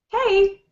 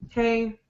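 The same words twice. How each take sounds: First: Lively and energetic, with an excited tone. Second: Flat and unchanging, with a bored tone. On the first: "But if you're excited, you get a different sound" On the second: "when your voice maybe sounds bored ... It's kind of flat, doesn't change"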